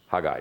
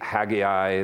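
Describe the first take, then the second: First: The name is said the Hebrew way. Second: The name is said the English way. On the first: "The Hebrew pronunciation is Haggai" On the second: "English pronunciation can be Haggai"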